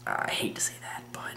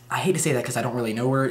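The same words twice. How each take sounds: First: Hushed whispered confession; whispering. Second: Said in the usual way. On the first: Real, not acted. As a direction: drop to a whisper, as if embarrassed. Admitting something awkward.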